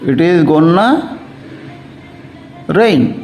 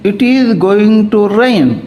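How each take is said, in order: First: 'Going to' is reduced to one word, 'gonna'. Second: 'Going to' is said as two full words.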